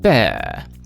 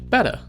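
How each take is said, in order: First: The middle T is dropped from the word. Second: The middle T sounds like a soft D. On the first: "T's dropped from words" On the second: "the T sound shortened, almost forming a D"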